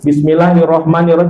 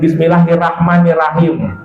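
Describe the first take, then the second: First: The vowels after the r sound like o. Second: The vowels after the r sound like a. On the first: The speaker calls it right. "huruf ro dibaca ro" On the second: The speaker calls it wrong.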